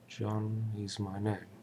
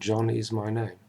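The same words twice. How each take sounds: First: The first word is slowed, softer, then pauses. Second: The first word is said at normal speed.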